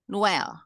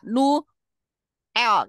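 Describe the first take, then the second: First: The name is said smoothly as one unit. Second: The name is broken into two parts with a pause. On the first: The speaker calls it right. "Nuel itu dibaca jadi satu, satu kesatuan" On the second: The speaker calls it wrong. "Nggak nu, el, kan nggak gitu"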